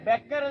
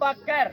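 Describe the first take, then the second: First: The first vowel sounds like 'e', as in beggar. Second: The first vowel sounds like 'a', as in Bakkar. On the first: It means a beggar. The speaker calls it wrong. "பெக்கர்னா பிச்சைக்காரன் அர்த்தமடா. பெக்கர் இல்ல" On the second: It is the person's name. The speaker calls it right. "Abu பக்கர்"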